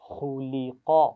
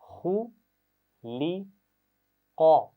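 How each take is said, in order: First: The sounds are joined smoothly without pauses. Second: Each sound is said separately with pauses. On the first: "रवानी से मिलाकर पढ़ते हुए" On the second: "पहले एक-एक आवाज़ पढ़िए"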